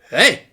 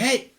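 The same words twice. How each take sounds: First: It is said at a louder volume. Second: It is said at a quieter volume.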